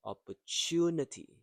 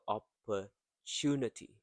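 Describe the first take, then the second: First: "opportunity" with "tu" high and loud; stress on third syllable. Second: "opportunity" split, a short gap before stressed "tu"; broken-down word rhythm. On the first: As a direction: punch "tu" in "opportunity". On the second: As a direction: pause after "oppor", then finish "opportunity" from "tu". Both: Shown as a demonstration. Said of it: "stressed and prolonged".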